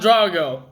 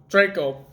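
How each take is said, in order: First: The middle consonant is a hard G sound. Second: The middle consonant is a K sound. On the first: The speaker calls it wrong. "Not Drago" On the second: The speaker calls it right. "I hope I'm saying that right"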